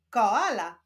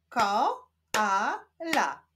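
First: Said in the usual way. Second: KO, A, LA with gaps; syllable by syllable. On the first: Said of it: "Powstaną z nich wyrazy". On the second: Shown as a demonstration. Teacher leading reading practice, Ko-a-la split apart. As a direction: sound out "Koala" in three separate pieces. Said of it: "łączmy sylaby".

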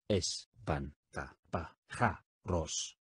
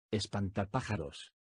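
First: "Espantapájaros" stretched out very slowly, syllable by syllable. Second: Said in the usual way. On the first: Shown as a demonstration. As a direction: drag out "Espantapájaros" slowly, each syllable distinct. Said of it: "dila silábicamente conmigo". (muy despacio, por sílabas: "Espantapájaros") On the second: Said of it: "Primero escucha la pronunciación".

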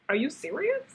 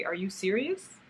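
First: Higher, rising are you serious; mock disbelief. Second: Said in the usual way. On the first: Recalling seeing the yarn in the shop, higher mock disbelief. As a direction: pitch it up in disbelief. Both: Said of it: "I was like".

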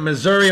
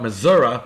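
First: Said in the usual way. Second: Missouri said as "muh-ZUR-uh"; local pronunciation. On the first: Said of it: "or as those folks there". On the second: Shown as a demonstration. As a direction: end Missouri on an "uh" instead of "ee". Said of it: "those folks there like to call it".

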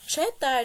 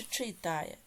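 First: "Читає" with a clear open E in the first syllable; pronounced with E. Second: "читає" with a clear И in the first syllable; pronounced with И. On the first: Teacher offering pupils a spelling choice, "Читає" with E. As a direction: say "Читає" as che-TA-ye. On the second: Teacher offering pupils a spelling choice, "читає" with И. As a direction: say "читає" as chy-TA-ye. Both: Shown as a demonstration. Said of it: "яку букву Е чи И".

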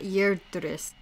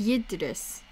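First: "Yerdris" with an er sound in the first syllable; slow "Yerdris", first vowel r-coloured; mistaken pronunciation. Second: "Yidris" with a short i in the first syllable; "Yidris" with no r before the d; correct pronunciation. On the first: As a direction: say "Yerdris" starting like "yerd", slowly. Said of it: "the name is pronounced Yidris, not". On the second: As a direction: say "Yidris" starting like "yid". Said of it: "the name is pronounced". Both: Shown as a demonstration.

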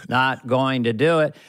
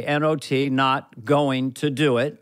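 First: Low, deliberate Bush catchphrase; a hint of Bush, measured; George Bush Senior. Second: Lightly voiced Bush, slow and low; a hint of Bush drawing out the words; George Bush Senior. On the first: Bush's famous line, low and measured. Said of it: "George Bush Senior". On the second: Reading the cue card as Bush, slowly. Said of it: "George Bush Senior on the cue card".

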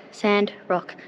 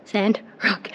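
No difference in how they are said.

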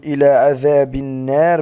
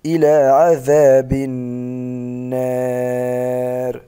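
First: النار with a short nun; النار said with no nasal hold; wrong recitation. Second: النار very slow with held nasal nun; النار with doubled humming nun; correct recitation. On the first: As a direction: say إلى عذاب النار without holding the nun. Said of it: "لا نقول". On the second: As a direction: draw out النار with a two-beat ghunna. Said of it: "بل". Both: Shown as a demonstration.

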